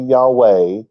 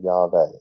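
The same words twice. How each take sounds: First: The middle consonant is a W sound. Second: The middle consonant is a V sound. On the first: The speaker calls it wrong. "It's never going to be Yahweh" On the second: The speaker calls it right. "It has always been Yahweh"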